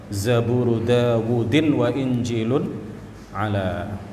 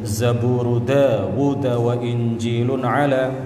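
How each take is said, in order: First: The name ends with an added -in sound. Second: The name ends plainly on the d sound. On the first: "bisa juga dibaca Zabur Dawudin" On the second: "Bisa dibaca Zabur Dawud wa Injilun ala"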